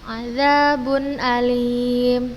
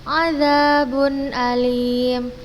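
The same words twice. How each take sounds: The two takes are said the same way.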